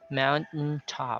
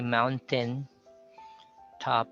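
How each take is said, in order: First: The vowel before the final n is silent. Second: The vowel before the final n is heard. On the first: The speaker calls it right. "So you say across the mountain" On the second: The speaker calls it wrong. "you don't say mountain top"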